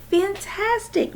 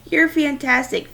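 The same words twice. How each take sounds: First: High, slow, emotional and choked. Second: High, loud enthusiastic praise; excited praise. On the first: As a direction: barely get the word out. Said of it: "so emotional she could barely talk". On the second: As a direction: cheer him on proudly. Dad praising Justin. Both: Acted.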